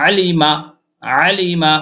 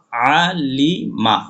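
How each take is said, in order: First: Alima read quickly, run together. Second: Very slow, drawn-out syllables; slow reading. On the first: Teacher showing students the fast reading, quick. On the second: Teacher spelling the word for students, very slow. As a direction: spell out Alima slowly, syllable by syllable. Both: Shown as a demonstration. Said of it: "তাড়াতাড়ি যদি পড়ি আমরা".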